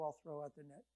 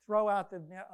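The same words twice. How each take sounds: First: Softer, resigned, rising on I'll; reluctant shrug. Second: Louder, punch the word Throw; Jesus telling Peter to cast the net, firm; firm command. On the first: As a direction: humour him, you doubt it'll work. Peter grudgingly obeys. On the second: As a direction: order it plainly. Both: Retold or imitated.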